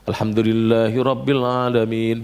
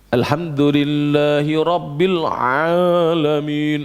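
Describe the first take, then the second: First: The throat sound in 'alamin' is light and ordinary. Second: The throat sound in 'alamin' is heavily exaggerated. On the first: The speaker calls it right. "Sekarang kita bacanya biasa" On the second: The speaker calls it wrong. "Ada yang ainnya ah gitu"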